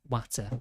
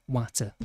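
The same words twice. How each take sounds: No difference in how they are said.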